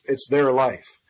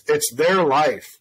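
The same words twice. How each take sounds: First: Said in the usual way. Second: "their" stretched slowly and stressed, falling at the end; slow emphasis. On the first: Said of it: "repeat of line 46". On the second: Retold or imitated. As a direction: lean hard on "their" and say it slowly. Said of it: "it's their life (repeated)".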